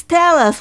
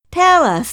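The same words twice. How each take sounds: First: "tell us" pitched higher and louder still; more eager cry. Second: High, louder eager plea; eager cry. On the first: Repeated "tell us" pushed higher and louder. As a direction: families pressing the spies for news. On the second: Eager high "Tell us" with a falling end. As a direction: families begging the returning spies. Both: Acted. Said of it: "they cried".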